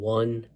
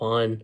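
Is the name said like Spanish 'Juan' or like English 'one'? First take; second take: one; Juan. First: The name sounds like the English word one. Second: The name sounds like the Spanish name Juan. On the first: The speaker calls it right. "I'm pretty sure his name is pronounced Von One" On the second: The speaker calls it wrong. "not Juan"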